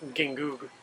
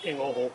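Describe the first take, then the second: First: The G sounds are clearly pronounced. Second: The G sounds are silent or nearly silent. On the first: This follows English reading habits. The speaker calls it wrong. "an American might pronounce the name" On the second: This follows Spanish pronunciation rules. The speaker calls it right. "those G's are pretty much silent"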